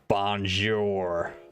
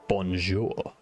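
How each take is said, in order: First: It is said with a heavy English accent. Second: It is said with a French pronunciation. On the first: The speaker calls it wrong. "more like Aldo in in uh, Inglourious Bastards ... completely butcher it" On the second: The speaker calls it right. "we don't pronounce it correctly. Like, we don't say bonjour"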